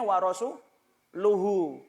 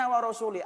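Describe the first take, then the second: First: The case ending of rasul uses the vowel u. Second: The case ending of rasul uses the vowel i. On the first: The Messenger, too, is free of the polytheists. The speaker calls it right. "harusnya dibacanya wa rasuluhu" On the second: God is free of the polytheists and of the Messenger. The speaker calls it wrong. "iku nek sampean Quran ra ono harokate"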